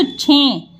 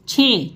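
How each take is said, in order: First: "छे" as chhẽ, through the nose; nasalised vowel. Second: "छे" as oral chhe; the mistaken "छे", no nasal; without nasal. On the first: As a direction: model "छे" with a nasal e. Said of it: "अंक की बिंदी है". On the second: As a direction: say "छे" with the vowel kept out of the nose. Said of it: "छे नहीं है". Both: Shown as a demonstration.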